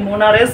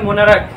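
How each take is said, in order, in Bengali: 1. শব্দটি 'ch' শব্দ দিয়ে শেষ হয়। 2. শব্দটি 'k' শব্দ দিয়ে শেষ হয়। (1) "যদি উচ্চারণ করলে হবে না" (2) "এটা উচ্চারণ হয় মোনারাক"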